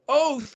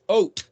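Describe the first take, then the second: First: The word ends with a th sound. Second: The word ends with a t sound. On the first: "or a T H" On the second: "It's pronounced ot"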